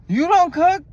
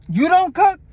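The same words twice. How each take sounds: First: High, loud incredulous you don't cook; shocked question. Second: Much higher, louder disbelieving you don't cook; shocked question. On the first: Retelling the driver's surprise to viewers, mock disbelief. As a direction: repeat his shock, hammed up. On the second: Driver shocked she doesn't cook, high disbelief. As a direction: gasp it out in disbelief. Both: Retold or imitated. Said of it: "That's what I said".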